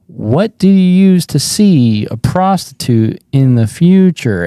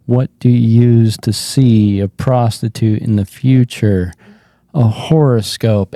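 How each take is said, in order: First: Louder, strained joke delivery; crumbling on stage. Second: Understated, resigned joke delivery; done, defeated. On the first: Comic repeats the wrong joke to the audience, crumbling. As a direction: push the joke out while falling apart inside. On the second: Comic repeats the same joke while bombing, defeated. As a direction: tell the joke like you have given up. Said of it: "I'm done". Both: Retold or imitated.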